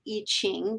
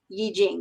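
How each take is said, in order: First: The second syllable begins with a 'ch' sound. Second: The second syllable begins with a 'j' sound. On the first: It follows how the name looks written. The speaker calls it wrong. "you sometimes hear it pronounced I Ching because that's how it looks like it's written" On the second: It follows the original pronunciation. The speaker calls it right. "I believe the correct pronunciation, if we care, is Yi Jing"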